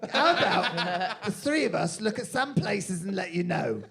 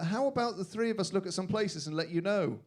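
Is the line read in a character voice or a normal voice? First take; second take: character voice; normal voice. First: It is read in a put-on character voice. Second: It is read in the speaker's ordinary voice. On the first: The speaker calls it right. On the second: The speaker calls it wrong.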